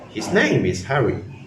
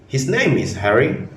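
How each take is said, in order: First: The pitch falls at the end. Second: The pitch rises at the end. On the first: The speaker is making a plain statement. "with a falling pitch" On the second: The speaker is asking a question. "with a rising pitch at the end"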